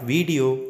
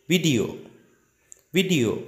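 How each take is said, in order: First: "video" with a long first vowel, "vee-dio"; wrong VIDEO. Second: "Video" with a short first I; correct VIDEO. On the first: ("video" mispronounced as "veee-dio") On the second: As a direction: clip the first vowel, "vid-io". ("Video" said "vid-ee-oh") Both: Shown as a demonstration. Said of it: "It's not video".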